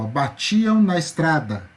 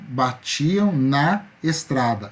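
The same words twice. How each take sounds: First: The vowels of 'na estrada' are joined together. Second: The vowels of 'na estrada' are kept separate. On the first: The speaker calls it right. "na estrada, eu articulo uma vez só" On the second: The speaker calls it wrong. "Eu não falo batiam na estrada, eu acabo juntando"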